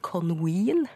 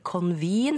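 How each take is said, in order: First: The middle consonant is a w sound. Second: The middle consonant is a v sound. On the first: The speaker calls it wrong. "blander den sammen V og W" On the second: The speaker calls it right. "i stedet for convene"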